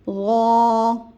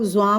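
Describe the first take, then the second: First: It begins softly, tongue tip at the teeth. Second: It begins with a buzzing z sound. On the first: The speaker calls it right. "ज़बान की नोक दांतों के किनारे से अदा करके अदा टच करेंगे तो नरमी से अदा होगा" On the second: The speaker calls it wrong. "कुछ लोग ज़्वा पढ़ते हैं, फिर ज़्वा में वही ज़ा की मुशाबियत होती है"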